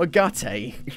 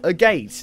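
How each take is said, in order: First: The second syllable sounds like gut. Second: The second syllable sounds like gate. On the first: It does not follow the spelling. "not a gutte" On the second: It follows the spelling. "I pronounce it how it's spelt"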